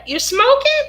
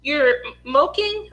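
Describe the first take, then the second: First: Said in the usual way. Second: "smoking" said without its first s, as "moking"; child's mispronunciation. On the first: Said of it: "Like, you're smoking?". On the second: Retold or imitated. Puzzled mother repeats her son's word, "smoking" said as "moking". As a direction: slowly echo "smoking" as "moking", questioning. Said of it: "he told me he was smoking".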